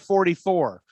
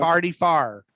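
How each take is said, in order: First: It is said with a standard pronunciation. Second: It is said in a Saint Louis accent.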